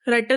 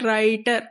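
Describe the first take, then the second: First: The first vowel is short and clipped. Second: The first vowel is long, a diphthong. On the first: The speaker calls it wrong. "राइटर तो नहीं हम बोल देते" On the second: The speaker calls it right. "ये हम long करके pronounce करते हैं"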